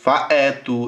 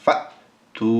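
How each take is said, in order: First: An extra vowel separates the two syllables. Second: The two syllables run together without a vowel. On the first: The speaker calls it wrong. "এরকম হবে না" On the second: The speaker calls it right. "যেহেতু সাকিন দেওয়া হয়েছে এখানে হবে ফা তু"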